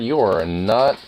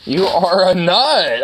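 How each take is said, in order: First: Said in the usual way. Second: Higher, louder, slow and stretched; excited dog talk. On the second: Real, not acted. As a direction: burst out delighted at the dog.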